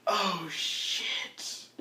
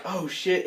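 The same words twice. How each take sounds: First: Faint, drawn-out "oh, shit"; weakly, as if badly wounded; very soft, slow-dawning groan; dying doppelganger. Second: Said in the usual way. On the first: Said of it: "the doppelganger's like". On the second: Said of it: "And you're like".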